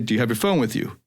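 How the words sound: The pitch falls at the end. The speaker sounds more confident. The speaker calls it right.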